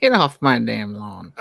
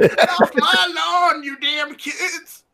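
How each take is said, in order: First: Put-on slow cranky old man voice; grizzled old-timer shooing kids; grumpy old man. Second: Put-on slow, laughing cranky old man; grumpy old man. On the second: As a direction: cackle it like an old coot.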